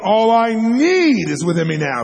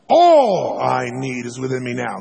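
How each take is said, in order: First: The word "need" is stressed. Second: The word "All" is stressed. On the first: "Emphasize need" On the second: "emphasize one word. Just the first word now"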